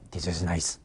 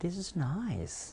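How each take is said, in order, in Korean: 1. 밋밋하게 말했고, 표현이 거의 없어요. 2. 생동감 있게, 감정이 풍부한 억양으로 말했어요. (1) "좋은 것 같아, 안 좋아? 안 좋은 것 같거든요" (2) "마치 음식을 재료만 준 게 아니라 다 삶아서 요리를 해서 준 것"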